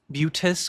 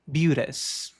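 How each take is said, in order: First: The t is a crisp, hard stop. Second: The t is a quick, soft flap. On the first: The speaker calls it wrong. "não dizemos beauteous, beauteous com um T seco" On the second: The speaker calls it right. "mas com um flap"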